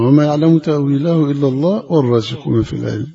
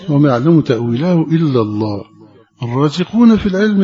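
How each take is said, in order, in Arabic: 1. يستمر الكلام دون وقف بعد لفظ الجلالة. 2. يتوقف الكلام بوقف بعد لفظ الجلالة. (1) "ده الوقف الأول" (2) "الوقف الثاني"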